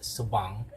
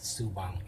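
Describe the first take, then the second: First: The stress is on the second syllable. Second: The stress is on the first syllable. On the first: The speaker calls it right. "with a stress on the second syllable" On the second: The speaker calls it wrong. "it's actually not pronounced as Subang"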